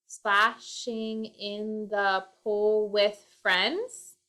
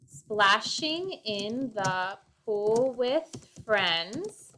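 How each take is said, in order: First: Slow, trying the line out word by word; slow syllable count. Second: Slow, deliberate, each syllable set apart; slow syllable count. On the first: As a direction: sound out each syllable slowly while composing. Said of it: "has to have seven syllables". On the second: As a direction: spell out the beats of the line slowly. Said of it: "Let's do that". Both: Shown as a demonstration.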